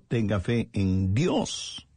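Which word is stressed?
Dios. The stress is on the word Dios.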